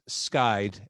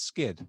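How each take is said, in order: First: The name has the long 'eye' vowel. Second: The name has the short 'ih' vowel. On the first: The speaker calls it right. "So the band is Skyd, S K Y D" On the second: The speaker calls it wrong. "I mispronounced your name"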